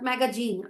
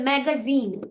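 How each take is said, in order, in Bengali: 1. শেষ স্বরধ্বনির আগের ব্যঞ্জনটি j-এর মতো শোনায়। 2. শেষ স্বরধ্বনির আগের ব্যঞ্জনটি z-এর মতো শোনায়। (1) "নট ম্যাগাজিন" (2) "তাহলে ম্যাগাজিন"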